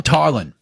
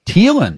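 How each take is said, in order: First: Tylan said as TIE-lan; corrected name pronunciation. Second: Tylan said as TEE-lan; mispronounced name. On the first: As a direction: say Tylan with an "eye" vowel first. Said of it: "It's Tylan". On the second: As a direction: say Tylan with a long "ee" first syllable, unsure. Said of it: "Is it Tylan". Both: Real, not acted.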